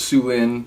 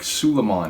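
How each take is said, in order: First: The name is said as Sue Lin. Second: The name is said as Suleiman. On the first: The speaker calls it right. "I remember learning it was Sue Lin" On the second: The speaker calls it wrong. "I said it like Suleiman"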